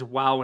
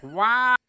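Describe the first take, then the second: First: Said in the usual way. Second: High, loud nasal "Wow!"; nasal Adam Shine wow. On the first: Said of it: "he says "wow" in the most bizarre way". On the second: Retold or imitated. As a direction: hit "Wow!" high and loud through the nose. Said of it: "this nasally voice".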